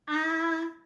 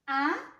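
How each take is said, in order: First: The pitch stays high and level throughout. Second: The pitch rises from middle to high. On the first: It sounds like opening up for the doctor. "Now let's go back from the first tone" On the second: It sounds like asking a question. "You're having a question"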